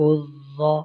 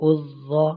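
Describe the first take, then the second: Both takes have the same delivery.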